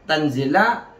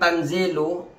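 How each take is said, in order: First: The word ends with a short 'a' vowel. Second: The word ends with a short 'u' vowel. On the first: It is the object of an omitted verb 'read'. "kalau dibaca fathah, kalau dibaca nasab" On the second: It is the predicate of an omitted subject. "dibaca dengan rofa, rofanya dengan dhamma"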